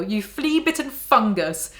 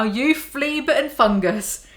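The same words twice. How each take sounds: First: "You flea-bitten fungus" diucapkan agak lambat seperti makian biasa. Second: "You flea-bitten fungus" sangat lambat dan lebih tinggi, tiap kata ditekan; makian ditekankan. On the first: A narrator's reading. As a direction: maki dengan tenang. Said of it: "shouted the Trunchbull". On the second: Shown as a demonstration. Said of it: "That's gonna be my go-to insult".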